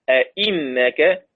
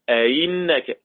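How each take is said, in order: First: The second hamza is a full glottal stop. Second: The second hamza is softened toward a y sound. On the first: "زي ما حفص ما بيقرأ" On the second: "الهمزة المكسورة بين الهمزة وبين الياء"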